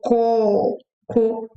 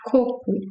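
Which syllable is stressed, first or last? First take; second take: last; first. First: The stress is on the last syllable. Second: The stress is on the first syllable. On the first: It means poop. "has the last syllable very strong" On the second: It means coconut. "You end with u sound"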